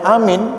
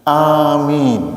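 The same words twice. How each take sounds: First: Both vowels are said short. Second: Both vowels are drawn out long. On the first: It only means believing. "Kalau hanya amin itu percaya saja" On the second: A prayer asking that the request be granted. "Amin itu annya panjang, minnya panjang"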